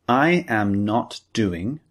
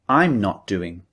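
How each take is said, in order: First: Both words are said in full, uncontracted. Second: The subject and verb are joined together. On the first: "instead of saying" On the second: "we usually say"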